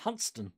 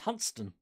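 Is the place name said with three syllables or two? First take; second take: two; two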